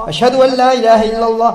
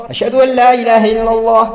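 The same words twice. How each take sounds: The two takes are said the same way.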